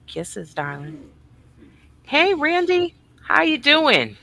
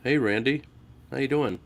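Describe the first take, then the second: First: Higher, eager greeting; light up for Randy; excited hello. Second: Bored, deadpan imitation of a greeting; mock how dull the hello was; flat mocking hello. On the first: Real, not acted. Greeting Randy in chat, eager and much higher. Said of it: "Why do you get excited over some people". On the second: Mocking the host's greeting to Randy, deadpan and bored. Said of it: "and you're like".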